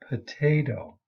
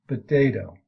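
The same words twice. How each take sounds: First: The first sound is a voiceless P. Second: The first sound is a voiced B. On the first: "It's unvoiced in standard pronunciation"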